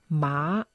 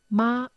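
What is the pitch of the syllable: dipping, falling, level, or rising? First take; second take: rising; level. First: The pitch rises from middle to high. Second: The pitch stays high and level. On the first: It means hemp. "einen ansteigenden" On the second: It means mother. "einen gleichbleibenden"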